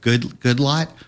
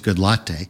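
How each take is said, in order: First: The name ends in a single 'lot' syllable. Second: The name ends in two syllables, like 'latte'. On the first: "I'm not sure if I'm pronouncing this right" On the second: "it's actually L-A-T-T-E, but I don't think it's Good Latte"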